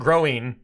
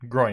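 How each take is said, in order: First: The word is said with two syllables. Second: The word is said with one syllable. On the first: The speaker calls it wrong. "He's not growing. It's a groin. Not" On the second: The speaker calls it right. "It's a groin"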